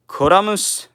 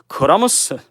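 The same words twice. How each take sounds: First: It is said with a Japanese pronunciation. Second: It is said with a Japanese pronunciation.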